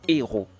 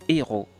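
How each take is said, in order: Both takes have the same delivery.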